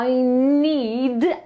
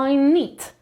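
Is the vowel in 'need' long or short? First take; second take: long; short. First: The vowel is long and it ends in d. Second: The vowel is short and it sounds like nit. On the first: The speaker calls it right. "długie i przez i wyszczerz i d. Na końcu jest d" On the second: The speaker calls it wrong. "a nie I need"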